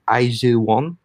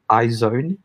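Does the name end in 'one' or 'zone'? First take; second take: one; zone. First: The name ends with the sound 'one'. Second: The name ends with the sound 'zone'. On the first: This is how it is read in Korean. "But when you read it in Korean, it's IZ1" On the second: This is how American speakers say it. "I think Americans pronounce it as IZone"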